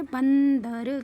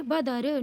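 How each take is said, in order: First: बंदर with a long held n, then द and र apart; drawn-out anusvara. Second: बदर syllable by syllable, no n after ब; reading without nasal. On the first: Teacher reading it with the dot, drawn-out anusvara. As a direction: sound out बंदर very slowly. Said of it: "इसको कैसे पढ़ेंगे". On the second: Teacher showing how not to read it, no nasal. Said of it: "नहीं पढ़ेंगे". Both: Shown as a demonstration.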